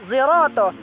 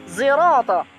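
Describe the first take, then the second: Both takes have the same delivery.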